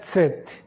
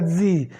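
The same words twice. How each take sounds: First: The letter is named with a German ts sound. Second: The letter is named the English way. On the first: "no alemão é" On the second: "No inglês é"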